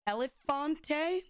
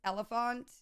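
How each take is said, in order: First: It is pronounced differently from the word 'elephant'. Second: It is pronounced exactly like the word 'elephant'. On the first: This is how it was said in childhood. The speaker calls it wrong. "that's how I always pronounced it when I was younger" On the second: This is how it is probably meant to be said. The speaker calls it right. "But I think it's Elephant"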